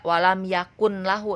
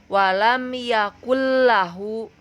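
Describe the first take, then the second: First: The n is clearly sounded before the l. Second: The n merges straight into the l sound. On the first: The speaker calls it wrong. "tidak walam yakun lahu" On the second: The speaker calls it right. "tetapi walam yakullahu"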